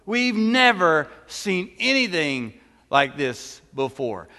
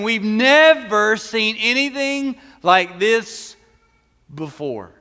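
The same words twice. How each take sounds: First: Said in the usual way. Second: Louder, slow, amazed proclamation; amazed praise. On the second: Acted. Pastor voicing the amazed crowd praising God, loud and slow. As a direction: proclaim it like the crowd that just saw a miracle.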